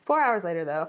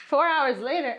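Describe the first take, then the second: First: Said in the usual way. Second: Higher, louder joking time-skip announcement; mock announcer. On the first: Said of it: "for real". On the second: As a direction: announce the time jump like a TV narrator. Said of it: "I'm just joking".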